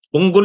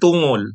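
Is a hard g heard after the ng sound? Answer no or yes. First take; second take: yes; no. First: A hard g follows the ng sound. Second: No hard g follows the ng sound. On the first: The speaker calls it right. "Tunggol yan" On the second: The speaker calls it wrong. "hindi tungol"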